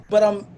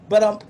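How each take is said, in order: Both takes have the same delivery.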